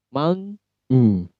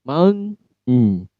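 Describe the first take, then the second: Both takes have the same delivery.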